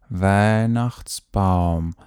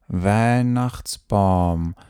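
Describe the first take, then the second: The two takes are said the same way.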